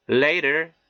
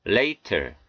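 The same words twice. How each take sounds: First: 'later' with T as an R-like tap; American flapped T. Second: 'later' with a clear hard T; unflapped T. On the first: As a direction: flap the T in 'later'. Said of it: "연음 현상이 들어가서 이렇게". ('later'의 T를 ㄹ처럼) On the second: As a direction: release the T in 'later' fully. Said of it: "이렇게 발음해 틀린 것은 아니". ('later'의 T를 또렷한 ㅌ로) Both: Shown as a demonstration.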